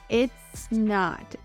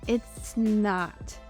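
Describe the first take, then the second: No difference in how they are said.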